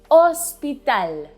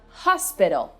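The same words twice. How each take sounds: First: The word starts directly with the vowel. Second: The word starts with an audible H sound. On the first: "In Spanish, ... the letter H is always silent" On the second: "we have hospital"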